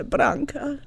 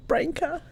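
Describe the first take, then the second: First: Branka said the Croatian way, as her aunt says it; Croatian pronunciation. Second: Branka said the usual Australian English way; English pronunciation. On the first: Telling a friend how Croatians say her name, Croatian pronunciation. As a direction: give Branka its Croatian sound, as back home. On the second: Showing a friend the name she is not called in Croatia, English pronunciation. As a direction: Branka as English speakers say it, set against the Croatian take. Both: Shown as a demonstration. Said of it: "That's how they say my name in Croatia".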